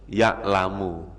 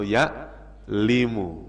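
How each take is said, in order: First: The vowel after the l is a. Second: The vowel after the l is i. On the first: The speaker calls it right. "Ya tetap dibaca ya'lamu" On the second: The speaker calls it wrong. "nggak boleh"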